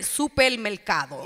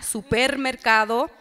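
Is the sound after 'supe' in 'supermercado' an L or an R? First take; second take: L; R. First: The sound after 'supe' is an L. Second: The sound after 'supe' is an R. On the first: "And I say it with an L" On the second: "Other people say it with an R"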